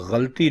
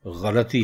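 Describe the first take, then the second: First: गलती as ghalti, clipped; गलती with l cluster, ghalti; wrong pronunciation. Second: गलती as ghalati, three syllables; गलती, ghalati, falling; correct pronunciation. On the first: Teacher rejecting गलती said ghalti. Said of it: "गलती नहीं". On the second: Teacher giving the correct गलती, ghalati. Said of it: "दुरुस्त लफ्ज़". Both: Shown as a demonstration.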